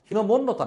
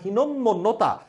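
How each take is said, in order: First: A middle consonant is said single. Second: A middle consonant is held double. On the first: The speaker calls it wrong. "হীনমন্যতা না" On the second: The speaker calls it right. "মটা দুইবার উচ্চারিত হবে"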